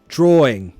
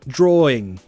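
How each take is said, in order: Both takes have the same delivery.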